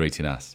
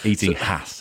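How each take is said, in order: First: The H sound is dropped entirely. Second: The H sound is pronounced strongly.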